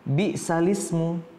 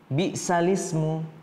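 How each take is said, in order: The two takes are said the same way.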